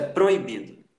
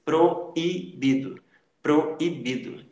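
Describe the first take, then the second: First: Said in the usual way. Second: "proibido" slowly as pro... i... bido; stretched, syllabled "proibido"; separated hiatus. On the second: Shown as a demonstration. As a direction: give O and I separate beats in "proibido". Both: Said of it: "você separa também na pronúncia".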